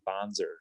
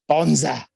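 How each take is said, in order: First: It is said in an American accent. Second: It is said in an Australian accent.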